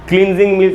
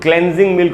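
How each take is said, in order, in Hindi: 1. पहला स्वर लंबी 'ee' ध्वनि है। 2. पहला स्वर छोटी 'e' ध्वनि है। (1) "क्लींजिंग मिल्क नहीं होगा" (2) "क्लेंजिंग मिल्क होगा"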